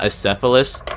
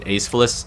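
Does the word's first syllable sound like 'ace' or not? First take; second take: not ace; ace. First: The first syllable does not sound like ace. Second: The first syllable sounds like the word ace. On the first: The speaker calls it right. "not Acephalus" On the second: The speaker calls it wrong. "I used to pronounce it Acephalus a lot"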